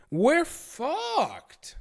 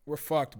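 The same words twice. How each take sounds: First: High, drawn-out doomed wail; comic despair. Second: Said in the usual way. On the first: Acted. Streamer learning of cancer risk from shrimp, comic despair. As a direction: wail it like all is lost.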